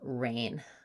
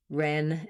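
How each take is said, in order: First: The vowel glides as a long diphthong. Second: The vowel is a short, open eh sound. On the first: The speaker calls it right. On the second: The speaker calls it wrong.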